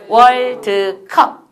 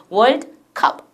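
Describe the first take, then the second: First: 월드컵 slowly in three separate beats, 월-드-컵; loud, drawn-out syllable-by-syllable 월드컵; Korean three-chunk pronunciation. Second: 월드 as one syllable, then 컵; 월드 컵 with no vowel after the d; English two-chunk pronunciation. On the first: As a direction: give the 드 in 월드컵 its own full vowel. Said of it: "한국어에서는 발음해 보세요". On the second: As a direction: say 월드 컵 in two beats, "world cup". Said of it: "세 덩어리가 아닌 두 덩어리인 거예요". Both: Shown as a demonstration.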